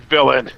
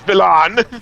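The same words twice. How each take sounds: First: It is said with a plain English accent. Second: It is said with a French accent. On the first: "his name is literally villain" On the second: "with a French accent, so when it comes out as villain"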